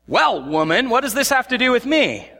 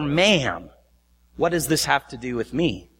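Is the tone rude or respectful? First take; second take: rude; respectful. First: It is said in a rude, scolding tone. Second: It is said in a polite, respectful tone.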